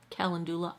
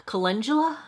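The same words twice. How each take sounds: First: Calendula said KAL-en-doo-luh with a clear doo; second try, Calendula as KAL-en-doo-luh, softer and questioning; trying Calendula again as KAL-en-doo-luh, quietly; other pronunciation. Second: Calendula with the stress on the second syllable, kuh-LUN-juh-luh; unsure trial of Calendula as kuh-LUN-juh-luh, asked like a question; testing Calendula as kuh-LUN-juh-luh with a rising question; trying a pronunciation. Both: Shown as a demonstration. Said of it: "Pronunciation is not going to be".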